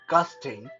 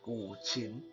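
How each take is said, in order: First: The word ends with a 'sting' sound. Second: The word ends with a 'chin' sound. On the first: The speaker calls it wrong. "a lot of people uh, I know like to pronounce that" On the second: The speaker calls it right. "the proper way to pronounce this is"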